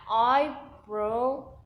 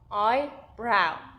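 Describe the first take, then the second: First: The second syllable rhymes with 'go'. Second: The second syllable rhymes with 'now'. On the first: The speaker calls it wrong. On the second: The speaker calls it right.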